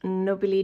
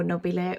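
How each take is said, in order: First: Nobile ending in a different vowel from the other take; alternative pronunciation. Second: Nobile given as the second variant, final vowel changed; alternative pronunciation. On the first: Grower offering viewers either way of saying nobile, alternative pronunciation. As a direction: say nobile one of two accepted ways. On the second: Grower tells viewers to pronounce it either way, alternative pronunciation. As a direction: offer nobile the other accepted way. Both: Shown as a demonstration. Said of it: "whichever way you want to pronounce it".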